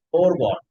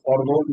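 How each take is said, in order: First: "ফোরগন", first part sounded like the number four; correct pronunciation demo. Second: The mistaken "ফরগোন", o sounds swapped round; mispronunciation demo. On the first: Teacher correcting the word for students, clearly pronounced "ফোরগন". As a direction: say "ফোরগন" with "ফোর" like four, open "গন". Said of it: "এটা ফোরগন". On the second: Teacher showing students an old mistake, mispronounced "ফরগোন". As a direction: say "ফরগোন" with short "ফর" and long o in "গোন". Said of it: "এটা তো ফরগোন না". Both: Shown as a demonstration.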